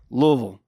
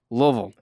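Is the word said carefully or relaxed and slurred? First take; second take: slurred; slurred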